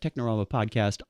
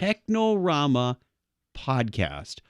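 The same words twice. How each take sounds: First: The phrase is said quickly. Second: The phrase is said slowly. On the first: The speaker calls it wrong. "I know that I went a little fast" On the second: The speaker calls it right. "Let me say that slower"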